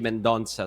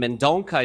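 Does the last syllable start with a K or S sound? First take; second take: S sound; K sound. First: The last syllable starts with an S sound. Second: The last syllable starts with a K sound. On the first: The speaker calls it right. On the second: The speaker calls it wrong.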